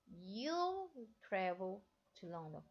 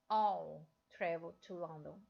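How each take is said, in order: First: The first word begins with a clear y sound. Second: The first word sounds like all, no y sound. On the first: "a pronúncia dele é you'll" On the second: "já vi os britânicos falando"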